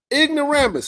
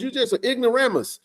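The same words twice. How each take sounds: First: Ignoramus, punched like a verdict; stamped word. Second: Said in the usual way. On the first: Shown as a demonstration. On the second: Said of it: "Ignoramus, stamp".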